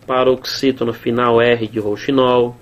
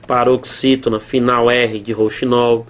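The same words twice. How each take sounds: The two takes are said the same way.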